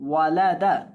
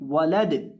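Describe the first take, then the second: First: The word ends with an open vowel. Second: The word ends on a stopped consonant.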